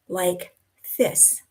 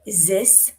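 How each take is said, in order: First: The word starts with a th sound. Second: The word starts with a z sound. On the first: "the T H sound, the th, like this" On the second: "or a Z"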